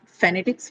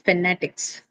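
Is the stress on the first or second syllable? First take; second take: first; second. First: The stress is on the first syllable. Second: The stress is on the second syllable. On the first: The speaker calls it wrong. "Not phonetics" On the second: The speaker calls it right. "So the second syllable, which is na"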